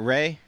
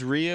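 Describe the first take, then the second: First: The name is said with one syllable. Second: The name is said with two syllables. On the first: The speaker calls it right. "and not Ray" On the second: The speaker calls it wrong. "Am I the crazy one who pronounced it as Rhea"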